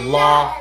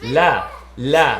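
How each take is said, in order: First: The la is said flat. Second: The la is said bright, not flat. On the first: The speaker calls it wrong. "It's not la, it's not flat" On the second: The speaker calls it right. "it's la la. It's definitely a happy letter"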